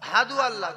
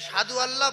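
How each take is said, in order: First: The word is said with an h sound. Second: The word is said with an s sound. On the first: The speaker calls it right. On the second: The speaker calls it wrong. "সাধু আল্লাহ বলবো না"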